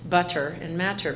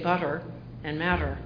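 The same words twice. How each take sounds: First: The middle t is a clear, crisp t. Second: The middle t is a quick r-like tap. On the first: "So in British you say butter and matter" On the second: "but we say butter and matter. So we actually have rolled R"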